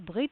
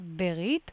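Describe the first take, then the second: First: Said fast with no vowel after the B. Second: Said with a short vowel after the B. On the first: This is the modern Israeli form. "modern Israeli pronunciation would be something like Brit, very fast, like silent Shiva" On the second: This is the biblical form. "but biblical Berit"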